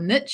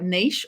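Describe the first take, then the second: First: The word is said in an American accent. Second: The word is said in a non-American accent.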